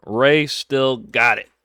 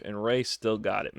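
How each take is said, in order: First: Rey still got it, louder and slow, every word weighted; emphatic repeat. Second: Said in the usual way. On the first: Real, not acted. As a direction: say it again, slow and loud, to drive it home.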